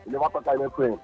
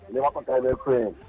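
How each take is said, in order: Both takes have the same delivery.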